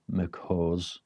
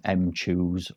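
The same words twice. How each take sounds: First: Mchoose said as "muk-HOZ", dropped softer; pronounced muck-hose. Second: Mchoose said as "em-CHOOZ"; pronounced em-chooz. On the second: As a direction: say the M of Mchoose as a letter, then "choose". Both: Shown as a demonstration. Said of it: "sounds like some kind of McDonald's thing".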